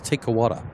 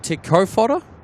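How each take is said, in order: First: The middle consonant is dropped entirely. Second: The middle consonant is pronounced as an f sound.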